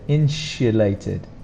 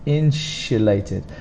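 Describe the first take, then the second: First: The consonant after 'in' is a sh sound. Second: The same.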